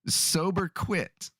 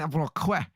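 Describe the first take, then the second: First: It is pronounced like English 'sober quit'. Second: It is pronounced with a French-style accent. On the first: "He'd say" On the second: "I said it with the French accent on purpose"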